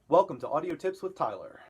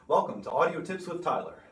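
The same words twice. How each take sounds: First: The voice sounds dry with almost no echo. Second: The voice has a thick, dense reverb. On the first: "more dead room" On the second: "here is our bathroom. Nice thick reverb there"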